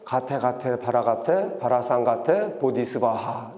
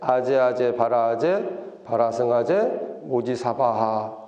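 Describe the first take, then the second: First: It begins with the syllables 'gate gate'. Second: It begins with the syllables 'aje aje'.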